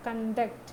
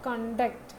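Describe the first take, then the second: First: Conduct stressed on the second part, con-DUCT; verb stress. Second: Conduct stressed on the first part, CON-duct; noun stress. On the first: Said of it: "വെർബായിട്ട് ഉപയോഗിക്കുമ്പോൾ second പാർട്ടിലും". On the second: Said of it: "noun ആയിട്ട് ഉപയോഗിക്കുമ്പോൾ first പാർട്ടിലും". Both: Shown as a demonstration.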